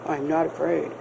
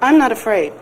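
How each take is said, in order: First: It is said in a very deep voice. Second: It is said in an ordinary voice.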